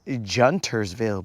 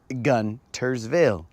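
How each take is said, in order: First: The word begins with a soft J sound. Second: The word begins with a hard G sound. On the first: The speaker calls it wrong. "It is not Juntersville" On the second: The speaker calls it right. "As in gun, the G is pronounced G"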